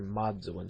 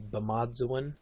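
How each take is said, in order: First: The word drops its initial syllable. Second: The word keeps its initial syllable. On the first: This is the southern dialect form. "in the south, a lot of times you just hear" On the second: This is the northern dialect form. "is how they would say life in the north"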